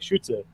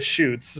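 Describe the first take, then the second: First: It is said with a German vowel and ending. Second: It is said as the English word shoots. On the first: "if you're actually pronouncing it, it'd be like Schütze" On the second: "I call it the shoots"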